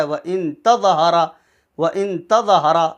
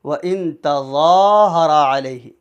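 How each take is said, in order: First: "تَظَاهَرَ" with zaa and raa cut short; imitating a rushed "تَظَاهَرَ"; misreading with short vowels. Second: "تَظَاهَرَ" with a very long zaa and long raa; stretched recitation. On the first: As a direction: run through "تَظَاهَرَ" unstretched. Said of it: "دو غلطی ہیں". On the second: Shown as a demonstration. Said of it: "اس کو بھی کھینچ کر پڑھتے ہیں".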